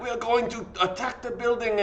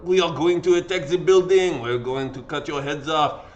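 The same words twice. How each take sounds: First: Put-on a half-hearted French accent, raised high; mock French revolutionary, badly done; failed French accent. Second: Louder mock French accent, hammed up; bad French accent. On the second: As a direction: play a bloodthirsty French mob in a poor accent. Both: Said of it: "I can't do a French, uh, accent".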